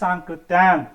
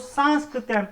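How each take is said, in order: First: No s sound comes before the k. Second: An extra s sound comes before the k. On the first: The speaker calls it right. "वास्तव सही नाम है" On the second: The speaker calls it wrong. "हम लोग अक्स- अक्सर उच्चारण में गलती करते हैं"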